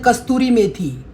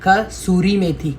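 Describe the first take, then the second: First: The first word has a 't' sound: kasturi. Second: The first word has no 't' sound: kasuri. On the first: The speaker calls it wrong. "बहुत सारे बोलते हैं कस्तूरी मेथी" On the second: The speaker calls it right. "उसका नाम है कसूरी मेथी"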